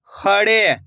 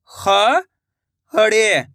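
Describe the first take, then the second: First: Said in the usual way. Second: खड़े drawn out slowly, syllable by syllable; slow syllable split. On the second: Shown as a demonstration. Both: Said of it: "मैं किस तरीके से".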